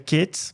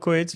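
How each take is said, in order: First: The name begins with a 'kweh' sound. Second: The name begins with a 'ko-eh' sound. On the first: This is the proper pronunciation of the name. "se pronuncia Quetes" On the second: This is how everyone usually says the name. "mas eu já falo Coetes porque todo mundo"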